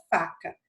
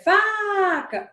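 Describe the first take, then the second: First: Said in the usual way. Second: "faca" called high with a long "fa"; stress on first syllable. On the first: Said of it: "o exemplo da palavra faca". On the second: Shown as a demonstration. Teacher demonstrating tonic syllable, "faca" drawn out high on "fa". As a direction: call out "faca", stretching the "fa". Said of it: "onde foi que eu passei mais tempo?".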